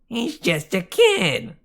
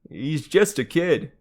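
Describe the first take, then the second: First: It is said in a high falsetto voice. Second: It is said in a normal voice.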